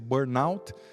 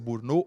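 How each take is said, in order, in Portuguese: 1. A palavra é pronunciada do jeito inglês. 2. A palavra é pronunciada do jeito francês. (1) "ou a inglesa" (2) "a pronúncia francesa"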